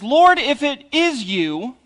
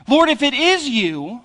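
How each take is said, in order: First: Slow quote that leans on "Lord" with a rising tune; Peter's quote read slowly, weight on "Lord"; slow, stress on Lord. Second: Peter's doubting quote with weight on "is", said higher; stress on is. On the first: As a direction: draw out "Lord" and let the line rise. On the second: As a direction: lift and press the word "is" in the quote. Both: Shown as a demonstration. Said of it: "if it really is Jesus".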